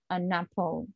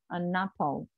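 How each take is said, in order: First: The n sound is joined onto the second word. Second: The same.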